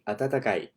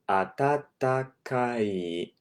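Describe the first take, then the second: First: It is said fast. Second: It is said slowly.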